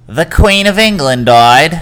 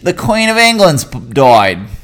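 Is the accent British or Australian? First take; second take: British; Australian. First: It is said in a British accent. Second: It is said in an Australian accent.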